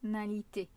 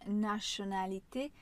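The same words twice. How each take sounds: First: The first T sounds like s. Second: The first T sounds like ch. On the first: The speaker calls it right. "c'est bien un son comme un S" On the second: The speaker calls it wrong. "beaucoup de mes élèves qui le prononcent"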